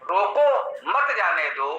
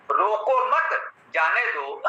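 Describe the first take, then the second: First: रोको rising, short break, then मत जाने दो in one falling group; pause after रोको. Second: Slow रोको मत as one group, break, then जाने दो; pause after मत. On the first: Teacher contrasting two comma placements, pause after रोको. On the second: Teacher contrasting two comma placements, pause after मत. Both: Shown as a demonstration. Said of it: "केवल अल्प विराम का स्थान परिवर्तन".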